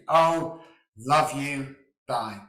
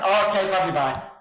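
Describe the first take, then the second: First: It is said slowly and deliberately. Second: It is said quickly and casually.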